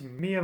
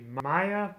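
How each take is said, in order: First: The name begins with a 'mee' sound. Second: The name begins with a 'my' sound. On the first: "I would assume it's pronounced Mia" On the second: "I kind of thought it was supposed to be Maya"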